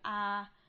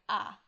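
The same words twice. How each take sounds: First: The pitch stays level and sustained. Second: The sound is short and sharply clipped. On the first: "a sort of flat, almost like singing tone" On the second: "a sort of staccato"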